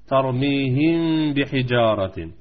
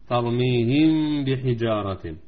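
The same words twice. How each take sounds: First: Slow, let the meem hum before بحجارة; nasal hiding. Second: Chanted recitation. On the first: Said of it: "مع الغنة". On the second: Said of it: "الغنة بمقدار حركتين". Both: Shown as a demonstration.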